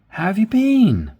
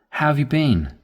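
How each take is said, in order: First: The voice goes up and sounds excited. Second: The voice sounds flat and serious. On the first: "When you go up, it's more excited" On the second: "It's a bit serious"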